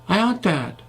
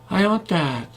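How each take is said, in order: First: The w sound has barely moving lips. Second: The w sound has barely moving lips.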